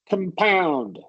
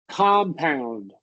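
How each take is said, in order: First: The stress is on the second syllable. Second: The stress is on the first syllable. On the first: It is the verb. "if we're talking about the verb ... stress on the second syllable" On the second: It is the noun. "compound nouns, ... stress on the first syllable"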